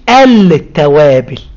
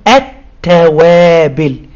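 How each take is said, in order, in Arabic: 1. اللام في أداة التعريف منطوقة بوضوح. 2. اللام صامتة والتاء مشددة. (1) "وما بنقولش التوابل" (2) "لا بنقول التوابل"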